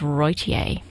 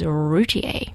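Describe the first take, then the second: First: The first syllable does not sound like 'route'. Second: The first syllable sounds like 'route'. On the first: The speaker calls it wrong. "whose name I mispronounced as Roytier" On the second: The speaker calls it right. "the proper pronunciation is Routier. Because, of course, they are en route"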